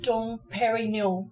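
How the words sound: It is said with an English pronunciation. "or if you want to say it in a more English way"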